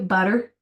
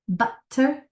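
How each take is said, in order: First: The middle t is a soft d-like flap. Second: The middle t is a crisp, clear t. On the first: "if you say it like we do, butter, it changes that t to a d" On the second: "if you say it the way it's supposed to be, you start sounding British"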